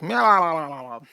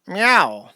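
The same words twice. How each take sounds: First: Echoing meow. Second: Said in the usual way. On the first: Shown as a demonstration. Reading a donation, echoing cat meow. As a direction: meow that trails off in echoes, meow-lalal. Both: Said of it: "but, like, in echoes".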